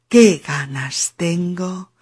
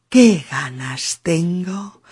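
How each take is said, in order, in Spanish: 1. Las palabras fluyen juntas en una sola unidad enlazada. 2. Las palabras fluyen juntas en una sola unidad enlazada.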